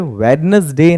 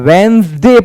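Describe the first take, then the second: First: The middle d is pronounced clearly. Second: The middle d is not pronounced. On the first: The speaker calls it wrong. "ये यहां पर वेडनेसडे नहीं पढ़ा जाएगा" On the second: The speaker calls it right. "इसको हम वेंसडे पढ़ते हैं। डी साइलेंट होता है"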